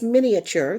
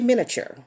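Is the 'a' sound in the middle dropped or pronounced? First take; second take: pronounced; dropped. First: The middle 'a' sound is clearly pronounced. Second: The middle 'a' sound is left out. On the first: The speaker calls it right. "There is an A there" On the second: The speaker calls it wrong. "Most people just say miniature"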